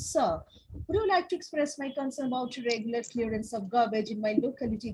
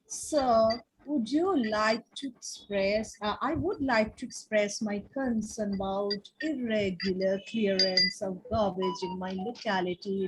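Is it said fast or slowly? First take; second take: fast; slowly. First: It is said very fast. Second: It is said very slowly.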